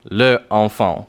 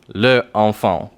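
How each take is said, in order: First: The vowel of le is fully pronounced. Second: The vowel of le is fully pronounced.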